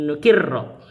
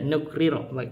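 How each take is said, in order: First: The two r sounds merge into one doubled r. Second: The two r sounds are kept apart by a vowel. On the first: "kalau yang yang biasa itu di di idgham" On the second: "ro dengan ro-nya enggak di idgham"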